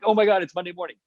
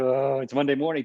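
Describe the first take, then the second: First: It sounds thrilled and excited. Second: It sounds dreary and unexcited.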